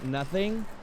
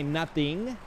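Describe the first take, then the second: First: It is said with a standard American accent. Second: It is said with a Chicano English accent. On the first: "instead of saying nothing" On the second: "you say nothing"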